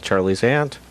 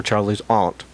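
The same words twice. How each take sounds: First: Said in the usual way. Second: "Aunt" said with a broad "ah", like "ahnt"; open, long A in "Aunt", the English way; British-style AUNT. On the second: Shown as a demonstration. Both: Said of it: "excuse me".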